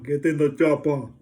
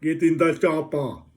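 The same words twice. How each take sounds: First: Loud, lightly Austrian action-hero command; rough Schwarzenegger line, louder; Arnold impression. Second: Slow, loud, lightly Austrian action-hero line; a rough Schwarzenegger bark; half-hearted Arnold Schwarzenegger, louder and slowed; Arnold impression. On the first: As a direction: bark it like a movie hero. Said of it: "Every film that he's ever done". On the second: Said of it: "phrases go like Arnold".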